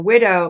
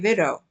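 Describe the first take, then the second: First: The word begins with a W sound. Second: The word begins with a V sound.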